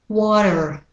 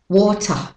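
First: It has a d-like t and an r. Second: It ends in a schwa with no r. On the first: "Now for the American pronunciation" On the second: "British Australian first"

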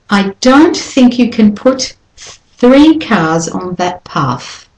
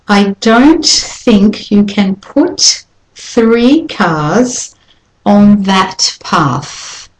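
First: The sentence is spoken more quickly. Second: The sentence is spoken slowly and carefully.

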